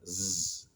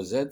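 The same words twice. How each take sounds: First: Z as a long buzzed "zzz"; Z as pure voiced friction; sound, not letter. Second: Z said as the French letter "zède"; name the letter Z, "zède"; Z with its vowel and final d. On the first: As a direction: buzz the Z with no vowel. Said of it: "c'est le son Z". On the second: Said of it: "c'est pas la lettre Z". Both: Shown as a demonstration.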